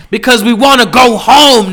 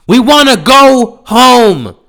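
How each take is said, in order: First: Exasperated. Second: Higher, louder and slow, drawn-out plea; exasperated yell. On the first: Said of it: "rising exasperation". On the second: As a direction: stretch it out like you're at your limit. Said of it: "peak of exasperated plea". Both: Real, not acted.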